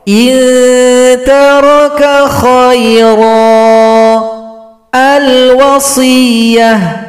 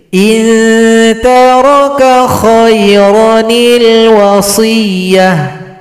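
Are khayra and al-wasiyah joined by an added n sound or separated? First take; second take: separated; joined. First: Khayra stops, and al-wasiyah starts with a. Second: Khayra runs into wasiyah through an added ni sound. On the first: "ini cara bacanya ketika waqaf" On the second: "Kalau dibaca lanjut digantikan oleh nun kecil"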